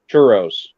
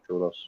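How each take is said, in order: First: It is said with a plain English accent. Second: It is said with a Mexican Spanish accent.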